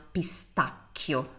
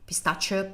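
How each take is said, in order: First: The middle consonant is a hard k sound. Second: The middle consonant is a soft sh sound.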